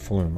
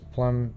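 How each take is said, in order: First: The name begins with an f sound. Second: The name begins with a plain p sound. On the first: The speaker calls it right. "Okay, [name], okay. So I wasn't even close" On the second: The speaker calls it wrong. "I was saying Plum"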